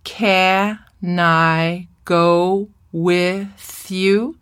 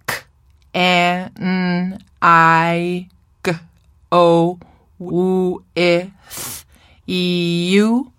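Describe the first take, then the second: First: "Can I go with you" broken into slow, separate syllables, ca-nai-go-with-you. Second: Each sound of "K, E, N, I, G, O, W, E, Th, E, U" isolated with pauses; individual phonemes. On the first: Teacher shows we speak in syllables, "Can I go with you" in separate slow syllables. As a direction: say "Can I go with you" one syllable at a time, pausing between each. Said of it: "I speak in syllables, not in individual consonants".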